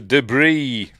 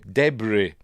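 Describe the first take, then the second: First: It is said in a non-British accent. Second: It is said in a British accent.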